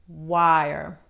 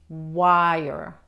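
Both takes have the same delivery.

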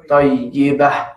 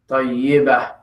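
First: The word ends in a soft h sound. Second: The word ends in a soft h sound.

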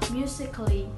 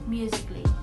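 First: The vowel before the final ly is pronounced. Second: The vowel before the final ly is silent. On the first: The speaker calls it wrong. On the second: The speaker calls it right.

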